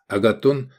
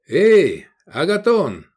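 First: Said in the usual way. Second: High, drawn-out hail; shouted call. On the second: A narrator's reading. Customer hailing the tavern keeper, shouted call. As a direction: call out loudly for the innkeeper. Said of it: "крикнул Искандер".

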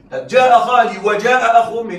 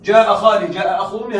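First: وجاء pushed louder, landing on the و; stress on the و. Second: Said in the usual way. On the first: Shown as a demonstration. Teacher contrasting the version with و, stressed. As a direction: lean on وجاء to show the added و. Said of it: "لا، هذا ليس هذا". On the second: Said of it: "هذا هو هذا".

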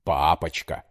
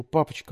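First: Папочка mimicked in father's low voice; mock her Папочка. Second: High, sweet pleading papochka; pleading daughter. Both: A narrator's reading. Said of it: "передразнил он её".

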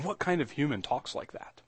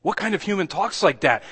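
First: Softly wondering question, under the voice; hushed wonder. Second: Higher, emphatic incredulous question. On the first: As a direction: ask it quietly, almost to yourself. Asks it low, then repeats it forcefully. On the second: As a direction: put the question out in open astonishment. Repeats the question, now astonished. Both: Real, not acted.

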